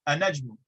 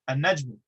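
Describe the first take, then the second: No difference in how they are said.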